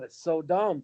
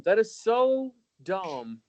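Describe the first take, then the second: First: Said in the usual way. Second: "so" stretched high and slow in "That is so dumb"; slow, emphatic "That is so dumb"; drawn-out disbelief. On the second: Real, not acted. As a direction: lean on "so", very slow and higher. Repeats complaint, then slows it.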